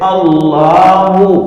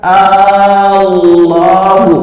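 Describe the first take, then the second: First: The opening vowel is short. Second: The opening vowel is long. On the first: It is a plain statement about God. The speaker calls it right. "Alifnya itu pendek" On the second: It turns the phrase into a question. The speaker calls it wrong. "alifnya dipanjangkan"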